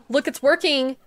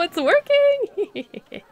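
First: Loud, delighted announcement; excited. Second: High, drawn-out villain gloat; evil mastermind. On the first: Real, not acted. Seeing guests use the machine, delighted. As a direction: point and cheer. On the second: Pretend. Gloating over the vending machine scheme, villain voice. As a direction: savor it like a cartoon villain.

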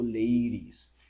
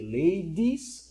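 First: LADIES with a quick tapped R for the D. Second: LADIES with a hard, clear D. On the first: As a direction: say "ladies" like LAY-rees. ("ladies" con la D como R suave) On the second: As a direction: say "ladies" with a full D sound, LAY-dees. ("ladies" con D bien marcada) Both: Shown as a demonstration. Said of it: "se intenta pronunciar un poco como la R".

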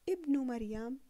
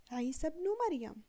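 First: ابن opened with a clear "i" before مريم; with the hamza. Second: بن said "bnu" with no alif, running from عيسى; silent hamza. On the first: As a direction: sound the alif of ابن at the start. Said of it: "إذا قلنا". (ابن مريم بنطق الهمزة) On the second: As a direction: link عيسى straight into بن مريم. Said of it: "فنقول". (عيسى بن مريم دون نطق الهمزة) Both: Shown as a demonstration.

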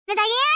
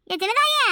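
First: Mother calling her daughter to come. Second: A higher, more insistent call of சின்னதாயே; mother calling a second time, more insistent. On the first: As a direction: call her name with a rising end. Mother calls daughter from inside. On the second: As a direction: call her again, more impatient. Calls again, higher. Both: Acted.

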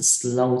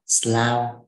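First: "slow" with a long o, rhyming with "go"; "slow" pronounced with an "oh" vowel; correct vowel in slow. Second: "slow" misread with an "ow" vowel, like "slau"; wrong "ao" sound in "slow", giving "slau"; mispronounced slow. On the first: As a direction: say "slow" with the o sound, as in "no". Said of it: "hoặc là chữ slow". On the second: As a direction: say "slow" wrongly to rhyme with "cow". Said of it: "chứ không đọc là slow". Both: Shown as a demonstration.

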